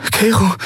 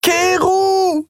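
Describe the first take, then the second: First: High, startled calling of a name; startled woman naming a friend. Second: Very high, drawn-out scream of a name; woman screaming after a leaving ship. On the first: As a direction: say his name in sudden alarm. Endriel alarmed, says name. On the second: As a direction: scream after him as he vanishes. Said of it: "schrie sie". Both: A narrator's reading.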